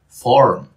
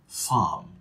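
First: The R sound after the vowel is heard. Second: The R sound after the vowel is silent. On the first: "in American English, where you say farm" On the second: "So in British English, words like farm, ... all the R's disappear"

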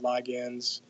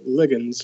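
First: The word is pronounced the American way. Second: The word is pronounced the British way.

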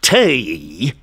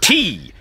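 First: The vowel sounds like 'ay'. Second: The vowel sounds like 'ee'. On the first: The speaker calls it wrong. "Not tay, mind" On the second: The speaker calls it right. "it sounds more genteel-like when you say it"

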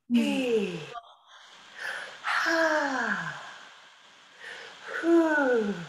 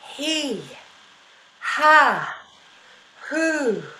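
First: Breath starts each sound gradually, like a slow sigh. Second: Breath starts each sound abruptly and quickly. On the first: "like a sigh, a little bit more slowly" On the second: "That was kind of abrupt"

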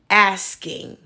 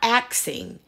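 First: The s comes before the k: asking. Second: The k comes before the s: axing. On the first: The speaker calls it right. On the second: The speaker calls it wrong. "It's not axing"

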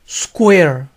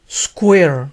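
The two takes are said the same way.

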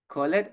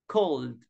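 First: The ending is said as an extra syllable. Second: The ending is said as a plain d sound. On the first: The speaker calls it wrong. "we don't say called" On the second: The speaker calls it right. "So we say cold. the final sound is a letter V"

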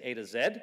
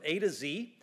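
First: The last letter is pronounced 'zed'. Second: The last letter is pronounced 'zee'.

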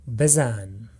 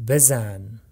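No difference in how they are said.

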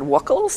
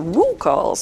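First: The name rhymes with the word chuckles. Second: The name does not rhyme with chuckles. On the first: The speaker calls it wrong. "I always said Wuckl's, like chuckles" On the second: The speaker calls it right. "you're supposed to say Wuckl's, which I find really awkward"

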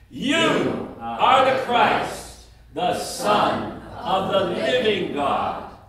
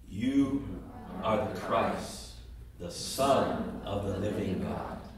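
First: It is said at the loudest volume. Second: It is said at the quietest volume. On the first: "each time louder than the other" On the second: "each time louder than the other"

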